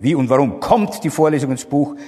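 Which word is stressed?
warum. The stress is on the word warum. The question is about the reason.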